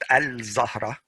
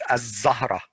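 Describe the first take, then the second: First: The l is clearly pronounced before the z. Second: The l merges into a doubled z sound. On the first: The speaker calls it wrong. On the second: The speaker calls it right. "this one is"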